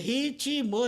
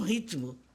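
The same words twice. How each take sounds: First: The word is said with three syllables. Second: The word is said with two syllables. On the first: The speaker calls it right. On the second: The speaker calls it wrong.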